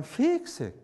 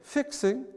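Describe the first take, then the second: First: Slow, smooth Southern "fixing"; drawled Southern fixing; Southern accent. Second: Said in the usual way. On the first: Shown as a demonstration. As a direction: stretch the first vowel of fixing Southern-style. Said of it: "more smooth". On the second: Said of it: "which is better to say".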